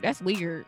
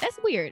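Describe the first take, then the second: First: It sounds disapproving and critical. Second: It sounds approving and pleased.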